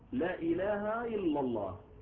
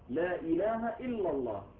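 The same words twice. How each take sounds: First: Ilah and illa begin with a y sound. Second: Ilah and illa begin with glottal stops. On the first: The speaker calls it wrong. "فيرد الهمزة ياء أيضا" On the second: The speaker calls it right. "لازم كل همزات محققة"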